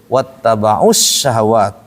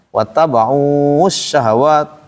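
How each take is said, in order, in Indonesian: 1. Vokal sebelum alif lam itu pendek. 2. Vokal sebelum alif lam itu panjang. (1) "kalau ketemu dengan alif lam syamsiah langsung" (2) "jangan begitu"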